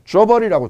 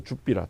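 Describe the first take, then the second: First: Said in the usual way. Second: 줍비라 said in Gyeongsang dialect as jup-bi-ra, dropping low at the end; 줍비라 voiced the Gyeongsang way, short and clipped into two beats; Gyeongsang dialect word. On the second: Shown as a demonstration. Lecturer giving students the Gyeongsang dialect word 줍비라. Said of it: "경상도 말로".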